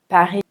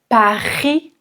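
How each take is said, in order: First: The R is soft and light in the throat. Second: The R is strongly exaggerated in the throat. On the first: The speaker calls it right. "Un R léger est beaucoup plus naturel" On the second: The speaker calls it wrong. "Si vous dites Paris, ce n'est vraiment pas joli"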